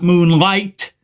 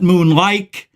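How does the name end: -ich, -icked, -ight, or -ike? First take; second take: -ight; -ike. First: The name ends in an 'ight' sound. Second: The name ends in an 'ike' sound. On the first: "not moonlight" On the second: "not moonlike"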